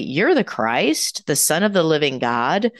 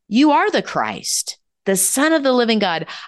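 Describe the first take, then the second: First: It ends with a rising, questioning tune. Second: It ends with a falling, certain tune.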